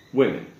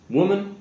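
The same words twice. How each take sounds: First: WOMEN as "WIM-in"; plural pronunciation. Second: WOMAN as "WUU-mun", pitched high; high, clear citation of WOMAN, "wuh" first; singular pronunciation. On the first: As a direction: model WOMEN with a short "i". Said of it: "sounding more like an I". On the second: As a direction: model WOMAN with a short "oo". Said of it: "So it's one woman". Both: Shown as a demonstration.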